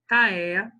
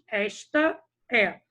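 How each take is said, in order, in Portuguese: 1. As palavras são ditas rápido e fundidas uma na outra. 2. As duas sílabas de "esta" são ditas por inteiro. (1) "quando eu vou falar mais rapidamente" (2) "nós sabemos que nós falamos"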